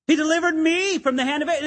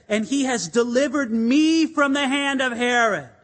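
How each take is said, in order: First: "me" leaned on, quick and higher; stress on me. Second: Said in the usual way. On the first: Shown as a demonstration. Peter marvelling that God delivered him, stress on "me". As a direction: hit the word "me" as if amazed. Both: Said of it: "there was an emphasis on the word me".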